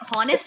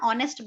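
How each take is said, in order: First: The word starts with an h sound. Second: The word starts with a vowel sound. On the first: The speaker calls it wrong. "इससे हॉनेस्ट नहीं बोलते ना" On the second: The speaker calls it right. "ऑनेस्ट बोलते हैं। एच यहाँ पर silent होता है"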